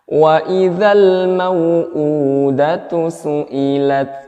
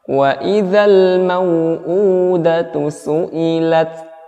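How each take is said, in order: The two takes are said the same way.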